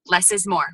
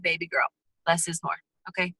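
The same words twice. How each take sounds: First: Said in the usual way. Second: Lightly voiced mom, softer and lower; a hint of a mom gently scolding her little girl; mom's advice. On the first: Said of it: "Less is more, right?". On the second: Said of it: "your mom's like".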